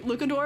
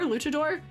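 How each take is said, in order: First: The middle consonant is a hard k sound. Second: The middle consonant is a ch sound. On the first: The speaker calls it wrong. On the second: The speaker calls it right. "You said it right the second time"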